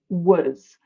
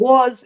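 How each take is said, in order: First: The word is said with a reduced schwa vowel. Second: The word is said with a full vowel.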